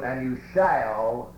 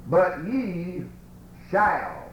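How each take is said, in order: First: Slowed down, landing heavily on "shall"; slow stress on shall. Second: "shall" leaned on and drawn out, falling; stress on shall. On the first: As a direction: linger on "shall" with a slight rise to make it a promise. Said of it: "there's another positive statement". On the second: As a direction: press down hard on "shall" as a firm promise. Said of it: "I put the emphasis on that one word". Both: Shown as a demonstration.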